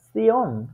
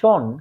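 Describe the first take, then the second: First: The ending starts with 'ts' before 'ion'. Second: The ending is said as a single 'sh' sound. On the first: This is how German says it. "ডয়েচে এটা উচ্চারিত হয় সিয়ন" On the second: This is how English says it. "শব্দকে আমরা উচ্চারণ করি শন"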